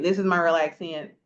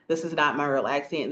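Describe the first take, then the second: First: Natural small-town Florida country accent, slightly lifted; real country accent. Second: Said in the usual way. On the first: Shown as a demonstration. Speaker shows listeners the accent she doesn't use, country Florida accent.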